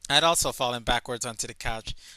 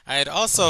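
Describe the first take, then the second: First: It is read in a plain narrating voice. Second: It is read with heavy, exaggerated emphasis.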